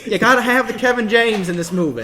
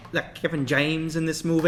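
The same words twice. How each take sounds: First: Smug southern tycoon, lightly voiced; hint of a wealthy mogul pitching; southern movie mogul. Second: Lightly voiced southern mogul; southern movie mogul. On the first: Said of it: "my southern movie mogul". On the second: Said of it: "That was my movie mogul impression".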